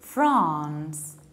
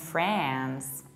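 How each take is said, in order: First: It is said in a non-American accent. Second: It is said in an American accent.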